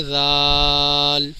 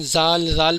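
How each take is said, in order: First: Tongue to teeth, stretch زال very slowly; correct pronunciation. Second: زال said short with a buzzing z; mispronounced. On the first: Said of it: "صحیح تلفظ ہے". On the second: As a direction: say زال quickly as a common error, unstretched. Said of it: "یہ بالکل صحیح تلفظ نہیں ہے". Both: Shown as a demonstration.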